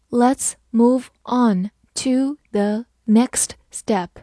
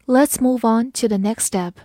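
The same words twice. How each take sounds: First: Slow, syllable by syllable; slow reading. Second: Said in the usual way. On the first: Shown as a demonstration. Teacher reading slowly for students to follow. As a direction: read it slowly for learners. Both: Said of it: "好，慢慢来读".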